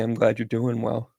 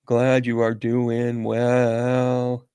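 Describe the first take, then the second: First: Said in the usual way. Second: Very slow, stretched on a level pitch; drawn out. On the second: Real, not acted. Answering a viewer's check-in, slowly drawn out. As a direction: hold every word long and even.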